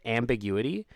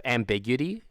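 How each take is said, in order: First: Ambiguity as am-big-YOU-uh-tee, rising in question; full pronunciation. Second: Ambiguity as am-BIG-yuh-tee, rising in question; shortened pronunciation. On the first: Streamer asking how people say it, Ambiguity in five syllables. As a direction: keep the u and i apart in Ambiguity. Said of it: "Is that how people say it?". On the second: Streamer contrasting two ways to say it, ambiguity in four syllables. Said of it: "Instead of ambiguity?". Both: Shown as a demonstration.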